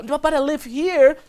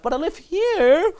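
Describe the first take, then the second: First: Put-on girl qualifying herself. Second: Put-on girl's slower qualifying tone. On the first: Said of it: "I'm like". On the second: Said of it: "She's qualifying herself".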